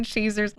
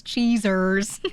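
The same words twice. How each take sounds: First: Said in the usual way. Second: "cheesers" with buzzing Z sounds. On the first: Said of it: "we gotta make it worse". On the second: Shown as a demonstration. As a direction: lean on the Z's in "cheesers". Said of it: "put the Z's in there".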